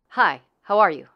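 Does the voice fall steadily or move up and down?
falls. The pitch is shorter and moves downward.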